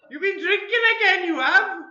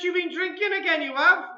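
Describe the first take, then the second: First: It is said in a Welsh accent. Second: It is said in the speaker's ordinary accent.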